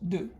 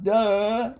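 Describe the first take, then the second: First: The d is a short sound with no vowel. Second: The d is followed by a short uh vowel. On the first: The speaker calls it right. "very fast, just d" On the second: The speaker calls it wrong. "not duh"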